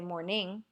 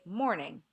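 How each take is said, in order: First: The stress is on the second syllable. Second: The stress is on the first syllable. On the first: The speaker calls it wrong. "We don't say morning" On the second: The speaker calls it right. "we say morning"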